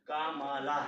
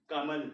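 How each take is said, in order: First: कामाला with every syllable drawn out as का-मा-ला; wrong reading, syllables apart. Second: कमल said as one smooth word, ka-mal, no final aa; correct joined reading. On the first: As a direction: say कामाला pulling each vowel long, separately. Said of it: "कमला अटपटा जैसा लग रहा है ना". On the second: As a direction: run कमल together with a short closing l. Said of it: "कामाला से तो कमल ये थोड़ा ठीक लग रहा है ना". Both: Shown as a demonstration.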